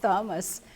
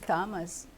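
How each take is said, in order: First: The name begins with a th sound. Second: The name begins with a plain t sound. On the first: The speaker calls it wrong. "you called me with the H" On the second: The speaker calls it right. "My name is Thomas"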